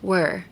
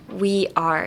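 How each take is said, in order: First: It is said as one short contracted syllable. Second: It is said as two full separate words. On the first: "but we're" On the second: "It's a short term for we are"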